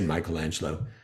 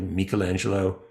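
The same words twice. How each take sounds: First: The name is pronounced the American English way. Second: The name is pronounced the Italian way. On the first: "Most of the time in American English, we say" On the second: "The Italian would have been a little bit more like"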